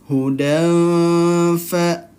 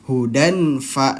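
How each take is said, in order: First: The n is hidden, nasalized, held for two beats. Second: The n is pronounced clearly with no nasal hold. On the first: The speaker calls it right. "samar dan juga ditahan dua ketukan" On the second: The speaker calls it wrong. "kalau jelas idhar halki ... itu kurang tepat"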